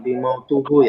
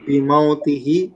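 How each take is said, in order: First: The last two syllables use the vowel u. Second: The last two syllables use the vowel i. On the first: The speaker calls it wrong. "bukan bimautuhu" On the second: The speaker calls it right. "bimautihi bukan bimautuhu ya"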